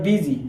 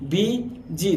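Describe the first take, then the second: First: Said in the usual way. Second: বিজি pulled apart as "bi... ji"; teacher sounding out বিজি syllable by syllable; split into syllables. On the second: Shown as a demonstration. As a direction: say বিজি in two separate beats, pausing between them. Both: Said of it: "দেখো দুইবার উচ্চারিত হয়েছে".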